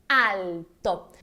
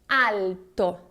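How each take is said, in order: First: The L sound is strong and clearly marked. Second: The same.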